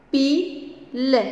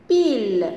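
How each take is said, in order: First: "Pile" split into pi, pause, le; syllable by syllable. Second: Said in the usual way. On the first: Shown as a demonstration. Teacher leading pupils in reading words, syllable by syllable. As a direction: sound out "Pile" as two separate syllables, pi... le. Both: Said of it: "on va lire ensemble des mots".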